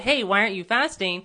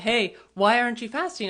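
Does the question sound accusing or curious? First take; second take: accusing; curious. First: The question sounds accusing and pointed. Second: The question sounds gentle and curious.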